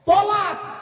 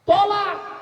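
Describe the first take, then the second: No difference in how they are said.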